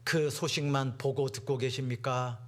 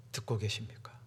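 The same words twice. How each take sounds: First: Said in the usual way. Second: Hushed, urgent whisper; a sudden confiding whisper to the congregation. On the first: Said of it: "듣고 계십니까? (repeated as whisper)". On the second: Shown as a demonstration. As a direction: lean in and whisper the question.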